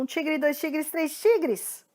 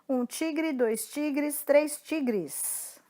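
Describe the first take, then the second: First: It is spoken at a very fast pace. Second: It is spoken at a slow pace. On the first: "Mais rápido" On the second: "A gente começa devagar"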